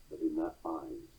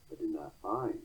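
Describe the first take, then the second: Both takes have the same delivery.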